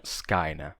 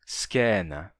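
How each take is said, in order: First: Skaina said with a full ai diphthong, as the rejected form. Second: Skena said with a plain open e, skɛna; monotongized diphthong. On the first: Teacher contrasts the pronunciation she does not use, with diphthong. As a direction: skaina with the old classical ai glide. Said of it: "e não skaina". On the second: Teacher shows Latin scena with an e sound. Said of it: "o ditongo ai eu pronuncio já monotongado em é". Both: Shown as a demonstration.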